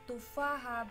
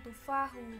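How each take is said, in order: First: The word ends with an 'a' vowel. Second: The word ends with a different final vowel. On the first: The speaker calls it right. "dibaca fathah" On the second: The speaker calls it wrong. "bukan tufahu"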